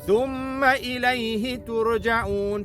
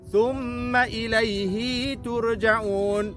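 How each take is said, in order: First: The vowel after the h is short. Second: The vowel after the h is drawn out long. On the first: The speaker calls it right. "tidak dibaca dengan dengan panjang" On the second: The speaker calls it wrong. "ada orang baca"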